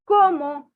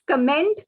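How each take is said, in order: First: It is pronounced the French way, like como. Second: It is pronounced the English way, with final consonants. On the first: The speaker calls it right. "it is como" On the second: The speaker calls it wrong. "in English it is pronounced as comment"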